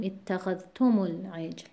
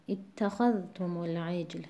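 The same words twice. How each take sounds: First: اتخذتم العجل with the stress moved off خا onto the temporary ضمه of م; wrong stress. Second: اتخذتم العجل with the stress kept on خا across the linking; correct stress on خا. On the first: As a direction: demonstrate the mistake by shifting the stress of اتخذتم toward تم. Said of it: "نباید بخونیم". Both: Shown as a demonstration.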